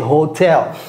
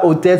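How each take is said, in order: First: The word starts with an audible H sound. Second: The word starts without an H sound. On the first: The speaker calls it right. "c'est hotel" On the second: The speaker calls it wrong. "c'est pas hôtel"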